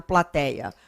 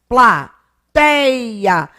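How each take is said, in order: First: Said in the usual way. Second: PLATEIA loud and slow, "tei" held long; syllable by syllable. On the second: Shown as a demonstration. Teacher asking class to think, slowly stretched plateia. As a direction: sound out pla-TEI-a, stretching the stress. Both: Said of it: "Para e pensa".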